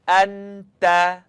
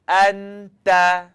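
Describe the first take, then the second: The two takes are said the same way.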